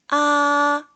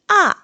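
First: The pitch stays high and level. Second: The pitch falls sharply from high to low. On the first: "1성은" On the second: "4성은"

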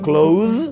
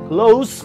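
First: The word ends with a buzzing Z sound. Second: The word ends with a hissing S sound. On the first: The speaker calls it wrong. "não close" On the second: The speaker calls it right. "com som de S no final, é perto"

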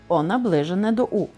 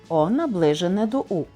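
Both takes have the same delivery.

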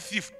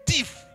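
First: The word is said in a mild, ordinary way. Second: The word is said with strong, forceful emphasis. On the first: He is just an ordinary thief. The speaker calls it wrong. "Not thief" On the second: He is a thief of the worst kind. The speaker calls it right. "You are a thief with a big T"

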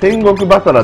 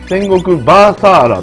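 First: The vowels in basara are all short. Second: Two vowels in basara are drawn out long. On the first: The speaker calls it right. "戦国バサラっていうゲームがあったんですけど" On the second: The speaker calls it wrong. "伸ばし棒が2 本入るっていう"

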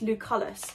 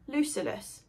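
First: The middle syllable has a 'u' vowel, like 'cull'. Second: The middle syllable has an 'i' vowel, like 'sill'. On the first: The speaker calls it right. "somebody said to me it's Lucullus" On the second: The speaker calls it wrong. "I spell it L-U-C-I-L-L-U-S"

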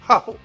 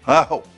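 First: The word starts with a breathy h sound. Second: The word starts smoothly on the vowel. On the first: The speaker calls it wrong. "ni haho" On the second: The speaker calls it right.

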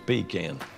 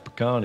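First: The first syllable sounds like 'pee'. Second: The first syllable does not sound like 'pee'. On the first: It jokingly names a can to urinate in. "If you need a pea" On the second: It names the nut used in a pie. "If you're wanting a pie"

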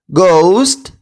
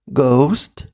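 First: The word is said loudly. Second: The word is said quieter still. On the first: "Голосно" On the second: "тихіше"

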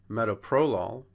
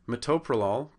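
First: The stress is on the first syllable. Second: The stress is on the second syllable. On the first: "to the first" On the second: "we're changing that accent from the second syllable"

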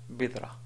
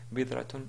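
First: The word ends in an open a vowel. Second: The word ends in a tun sound. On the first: "si on voulait appliquer les règles de l'arrêt sur un mot dans la langue arabe, alors ce sera bidra" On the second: "Bidratun à la limite"

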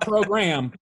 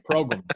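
First: The second syllable has a full 'gram' vowel. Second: The second syllable has a reduced 'grum' vowel. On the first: The speaker calls it wrong. "Not program" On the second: The speaker calls it right.

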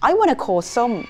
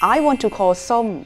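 First: Want to is blended quickly into wanna. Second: Want to is said as two full words.

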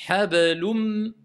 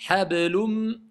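No difference in how they are said.

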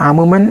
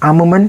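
No difference in how they are said.

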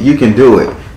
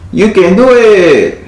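First: It is said in the speaker's normal voice. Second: It is said in a put-on Mexican accent.

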